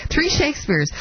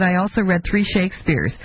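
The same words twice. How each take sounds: First: Pitched higher in mocking disbelief at "Three Shakespeares"; incredulous echo. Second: Said in the usual way. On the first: Host mocking the president's odd phrase, incredulous and pitched higher. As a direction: repeat "Three Shakespeares" higher, as if you can't believe it. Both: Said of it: "Who talks like that?".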